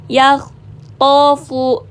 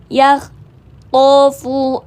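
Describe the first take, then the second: The two takes are said the same way.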